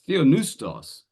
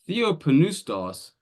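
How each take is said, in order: First: The P sound before the N is dropped. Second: The P sound before the N is pronounced. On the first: The speaker calls it wrong. "he's just dropped the P" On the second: The speaker calls it right. "You pronounce both"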